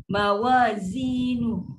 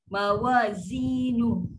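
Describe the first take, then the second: No difference in how they are said.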